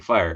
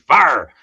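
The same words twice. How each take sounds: First: Fire is said with the usual long i glide. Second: Fire is said as a flat 'fahr' sound. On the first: The speaker calls it wrong. "it wouldn't be fire" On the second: The speaker calls it right. "F A H R. Gotta pronounce it right"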